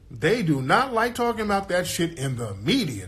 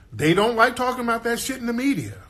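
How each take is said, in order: First: "do not" said as two separate, stressed words. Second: High, insistent complaint; high-pitched insistence. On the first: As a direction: hit "do not" deliberately, word by word. Restates it with "do not" spelled out. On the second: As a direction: say it high in one sustained run, dropping at the end. Emphatic claim, then restated more pointedly. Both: Real, not acted.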